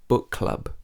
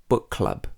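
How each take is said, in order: No difference in how they are said.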